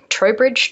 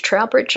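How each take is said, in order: First: Trowbridge said as "TROH-bridge", rising, unsure; unsure pronunciation. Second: Trowbridge said as "TROWL-bridge", the first vowel as in "cow"; second guess at pronunciation. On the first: Guest guessing the English town's name, TROH-bridge, tentative. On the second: Guest correcting herself on the town's name, TROW-bridge, rising. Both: Real, not acted. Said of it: "I'm not too sure".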